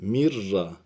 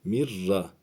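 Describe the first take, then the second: Both takes have the same delivery.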